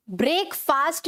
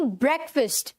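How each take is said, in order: First: ब्रेकफास्ट as "brake-faast"; wrong pronunciation. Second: ब्रेकफास्ट as "BREK-fust"; correct pronunciation. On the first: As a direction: give ब्रेकफास्ट long "ay" and "aa". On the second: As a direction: shorten both vowels in ब्रेकफास्ट. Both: Shown as a demonstration. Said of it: "ब्रेकफास्ट नहीं".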